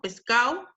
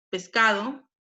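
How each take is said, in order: First: Pescado with the d dropped, said pescao; coastal pescao. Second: Said in the usual way. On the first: Shown as a demonstration. Teacher showing coastal speech, Pescado said as pescao. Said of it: "en la costa es muy común decir". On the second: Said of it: "en vez de pescado".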